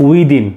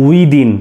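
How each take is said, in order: Both takes have the same delivery.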